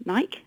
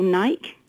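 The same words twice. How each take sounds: First: Nike in two syllables, NY-kee; Nike ending in a clear "kee"; newer pronunciation. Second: Nike as one syllable, rhyming with bike; old anglicised pronunciation. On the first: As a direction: sound the final e of Nike as "ee". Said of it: "then we call it Nike". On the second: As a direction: say Nike with a silent e. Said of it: "we used to call Nike". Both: Shown as a demonstration.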